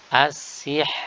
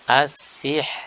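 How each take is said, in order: First: The r is thin and the word stops there. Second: The r is thin and the word stops there.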